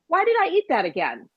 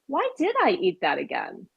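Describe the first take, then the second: First: It sounds harsh and self-critical. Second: It sounds calm and curious. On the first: The speaker is scolding themselves. The speaker calls it wrong. "oh God" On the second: The speaker is gently wondering about the reason. The speaker calls it right. "if you change your tone and say, huh"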